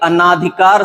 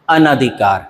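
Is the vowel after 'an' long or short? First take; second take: long; short. First: The vowel after 'an' is a long 'aa'. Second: The vowel after 'an' is a short 'a'. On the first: The speaker calls it wrong. "अनाधिकार शब्द जो है गलत है" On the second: The speaker calls it right. "उसका शुद्ध रूप"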